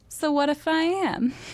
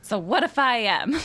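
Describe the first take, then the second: First: It is said in a mild tone. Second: It is said in a hostile tone.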